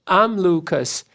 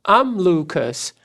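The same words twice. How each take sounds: No difference in how they are said.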